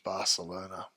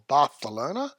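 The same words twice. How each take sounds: First: It is said with an English accent. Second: It is said with a Spanish accent.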